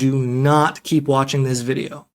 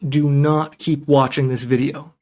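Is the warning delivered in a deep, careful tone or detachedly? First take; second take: detached; deep, careful. First: A stressed but detached, impartial tone. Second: A deeper, careful, warning tone. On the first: The message is delivered without caring how it is received. "Impartial, not particularly invested in how you receive the message" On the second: This is a sincere warning to protect the listener. "It's a deeper tone, it's a more careful warning"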